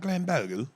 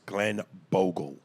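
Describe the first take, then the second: First: The name is said in a put-on English accent. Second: The name is said in a plain American accent.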